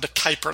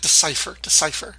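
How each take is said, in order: First: The name is said with a K sound. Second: The name is said without a K sound. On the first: The speaker calls it wrong. "I always want to do it with like a K sound" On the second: The speaker calls it right. "Sounds like DeCiper"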